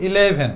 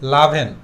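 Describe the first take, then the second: First: The word starts with a full vowel sound. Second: The first vowel is dropped, making it shorter. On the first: The speaker calls it wrong. "Maximum time আমরা উচ্চারণ করি ইলেভেন" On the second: The speaker calls it right. "আরেকটু short করে বলবো"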